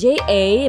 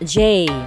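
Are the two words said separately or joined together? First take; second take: separate; joined. First: The two words are said separately. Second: The two words are joined into one syllable. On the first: The speaker calls it wrong. "So it's J A" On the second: The speaker calls it right. "but the correct form is J"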